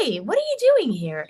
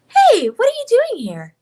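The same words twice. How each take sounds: First: Put-on slightly higher natural girl voice; your own voice, a bit higher; Himiko voice. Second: Put-on much higher, louder anime girl; Himiko voice. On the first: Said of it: "her voice is really just my voice". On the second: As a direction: lift your own voice up high. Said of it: "just a little bit higher".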